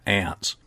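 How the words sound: The word is said in an American accent.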